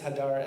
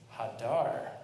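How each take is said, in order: First: The stress is on the first syllable. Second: The stress is on the last syllable. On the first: The fruit is beautiful. "Do not read pre-Eitz hadar as the beautiful fruit of a tree" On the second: The fruit dwells on the tree. "there is an emphasis on the final syllable"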